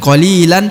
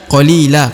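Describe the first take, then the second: First: The word ends with an n sound. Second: The word ends with a plain vowel. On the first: The speaker calls it wrong. "Bukan qalilan" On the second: The speaker calls it right. "tapi qalila, karena kita hentikan bacaan di sini"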